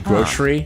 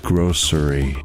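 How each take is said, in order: First: The first syllable is said the ordinary way. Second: The first syllable is said like 'gross'. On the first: The speaker calls it wrong. "most Americans go wrong. They say grocery" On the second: The speaker calls it right. "It's grocery. Get it? ... a place that sells nasty tasting food"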